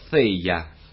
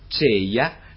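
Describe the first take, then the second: First: It begins with a tongue-between-teeth th sound. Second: It begins with a c sound. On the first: This is the rustic local form. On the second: This is a softened substitute form. "«c»"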